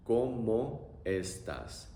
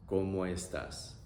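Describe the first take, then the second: First: Very slow, each syllable of ¿Cómo estás? drawn out; teacher modelling slowly; slow demo. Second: Said in the usual way. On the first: Shown as a demonstration. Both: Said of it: "Pronunciation is also very simple".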